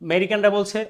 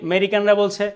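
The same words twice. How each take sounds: Both takes have the same delivery.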